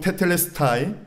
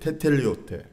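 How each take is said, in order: First: The word ends with a 'stai' sound. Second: The word ends with a short 'te' sound. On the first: This is the pronunciation many people commonly use. "많이들 테텔레스타이라 그러는데" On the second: This is the modern Greek pronunciation. "헬라 지금 현대 발음은 테텔리오테예요"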